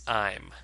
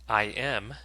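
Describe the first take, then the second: First: It is said as one short contracted word. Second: It is said as two separate full words.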